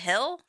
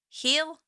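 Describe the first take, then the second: First: The vowel is short, like in 'hill'. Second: The vowel is long, like in 'heel'. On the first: This is speech without the local accent. The speaker calls it right. "instead of hill" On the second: This is the local Kentucky accent. The speaker calls it wrong. "I heard myself saying heel instead of hill"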